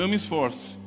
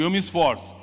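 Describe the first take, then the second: First: The phrase is said flatly, without energy. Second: The phrase is said with lively energy. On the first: The person does not really seem to make an effort. The speaker calls it wrong. "tem pessoas que ficam assim, ó" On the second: The person really makes an effort. The speaker calls it right. "diga comigo"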